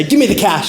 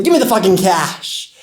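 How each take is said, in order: First: Fast robber's demand; fast, matter-of-fact holdup line; quick demand. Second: Robber's demand. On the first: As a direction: rattle it off like a quick stickup. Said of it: "just like that fast". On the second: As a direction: demand it like a street thug. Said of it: "I hear one of the good-for-nothings say". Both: Acted.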